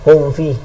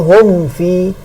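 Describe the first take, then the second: First: The m is hidden, lips not fully closed. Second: The m is fully closed and clearly pronounced. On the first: The speaker calls it wrong. "ikhfa tanpa tanpa dengung" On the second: The speaker calls it right. "Allazi hum fi, bukan hum fi"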